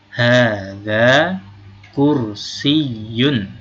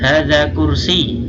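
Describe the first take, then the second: First: The word ends with an -un sound. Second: The word ends without an -un sound. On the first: This is the full form. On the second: This is fine in conversation.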